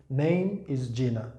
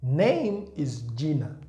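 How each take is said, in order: Both takes have the same delivery.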